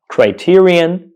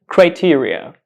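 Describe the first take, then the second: First: Criterion ending in -un, higher and slow; singular form criterion. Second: Criteria ending in -uh, pitched higher; plural form criteria. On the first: Teacher alternates singular and plural for learners, criterion ending in -un. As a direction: say "criterion" as cry-TEER-ee-un, drawn out. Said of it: "So the singular form is criterion". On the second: Teacher alternates plural and singular for learners, criteria ending in -uh. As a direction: say "criteria" as cry-TEER-ee-uh. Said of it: "The plural form is criteria". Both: Shown as a demonstration.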